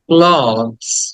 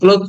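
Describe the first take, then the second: First: The word ends with a 'z' sound. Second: The word ends with a 'th' sound. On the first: The speaker calls it right. "অ এবং লাস্টে জ" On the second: The speaker calls it wrong. "ক্লোথ না"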